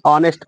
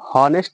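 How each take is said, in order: First: The word starts with a vowel sound. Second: The word starts with an h sound. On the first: The speaker calls it right. "ऑनेस्ट पढ़ते हैं, यच नहीं पढ़ेंगे" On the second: The speaker calls it wrong. "इसे हॉनेस्ट नहीं"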